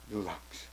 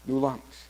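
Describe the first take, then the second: First: Hushed. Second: Said in the usual way. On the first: Real, not acted.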